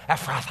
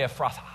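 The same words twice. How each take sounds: First: Emphatic, theatrical proclamation; dramatic flair. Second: Said in the usual way. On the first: Shown as a demonstration. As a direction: say it like you mean it, with relish. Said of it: "say it with a little dramatic flair". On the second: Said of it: "Everybody say".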